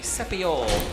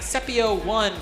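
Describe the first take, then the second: First: The name ends with a short 'ol' sound. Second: The name ends with the word 'one'. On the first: The speaker calls it right. "It's actually Sepiol" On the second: The speaker calls it wrong. "I was saying Sepio one for the longest time"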